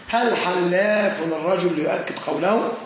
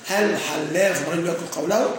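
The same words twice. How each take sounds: First: Slow, careful question read aloud; slow example reading. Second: Said in the usual way. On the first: Shown as a demonstration. Teacher presenting the exam example to students, slow and careful. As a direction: spell out the example question for the class. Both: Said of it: "يقول".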